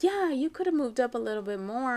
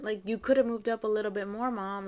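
First: Higher-pitched imitation of a complaining daughter; mock grumble with raised pitch; retold complaint. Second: Milder reproach, closer to everyday pitch; walk the complaint back a little; softened explanation. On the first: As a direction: push it out like a kid's reproach. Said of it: "I didn't mean it like that". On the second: Retold or imitated. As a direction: imitate a daughter explaining what she meant. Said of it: "Like, I meant".

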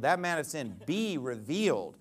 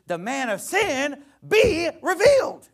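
First: Said in the usual way. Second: Mocking Ebonics line, high, loud and slow. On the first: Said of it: "Be he revealed?". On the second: Pastor mocking a pre-trib reading in hammed-up Ebonics. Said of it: "you could say".

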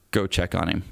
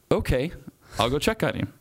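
First: Low, understated voice in the head; lightly voiced command from God, pitched down; little inner voice. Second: Higher-pitched, mildly acted compliance; retold "fine, I'll do it" with lifted pitch; obedient reply. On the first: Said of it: "that little voice in my head said". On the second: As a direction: answer the inner voice, giving in. Acts out his reply to the voice.

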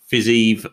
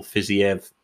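First: Fiziev said slowly as two syllables, "fiz-EEV"; first-guess pronunciation. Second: Fiziev said as three syllables, "fizzy-EV"; corrected pronunciation. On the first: Host reading fight results, Fiziev pronounced "fiz-EEV". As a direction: say Fiziev with a long "ee" ending. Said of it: "or Fiziev, probably more likely". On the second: Host correcting a fighter's name, Fiziev pronounced "fizzy-EV". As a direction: split the ending of Fiziev into "i-ev". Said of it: "probably more likely". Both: Shown as a demonstration.

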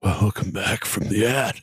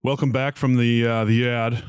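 First: Slow, drawn-out gloomy welcome; mock miserable. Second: A touch miserable, hesitant show intro. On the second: Real, not acted. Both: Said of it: "Why do you sound so miserable?".

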